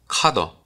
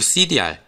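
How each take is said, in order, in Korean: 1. 두 음절짜리 한 단어로 읽습니다. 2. 글자 이름을 하나씩 따로 읽습니다. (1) "원래 발음이 카더라고 하더라고요" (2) "저는 cdr로 계속 읽을 건데"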